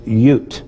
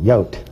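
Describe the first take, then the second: First: The vowel is a rounded 'u' sound. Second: The vowel is an open 'o' sound. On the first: The speaker calls it right. "But it's Yud, according to Hebrew scholars" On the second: The speaker calls it wrong. "in my Texas accent in times past, I've called it"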